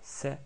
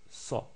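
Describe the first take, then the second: First: The s sound is light and thin. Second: The s sound is heavy and strong. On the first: The speaker calls it wrong. "on ne dit pas c'est" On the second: The speaker calls it right. "mais Sa"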